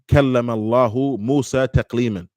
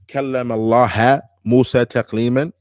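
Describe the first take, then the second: First: The word for God ends in a 'u' vowel. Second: The word for God ends in an 'a' vowel. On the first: God is the one who speaks. The speaker calls it right. "the verse is كلم الله, Allahu" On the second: God is the one spoken to. The speaker calls it wrong. "بالنصب"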